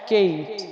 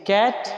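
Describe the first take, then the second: First: "केट" with a gliding "ए-ई", as in English Kate; long A vowel. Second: "कैट" with an open "ऐ", as in English cat; short A vowel. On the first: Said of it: "ए ई पढ़ते हैं". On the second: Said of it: "एक बार फिर पढ़ लेते हैं". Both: Shown as a demonstration.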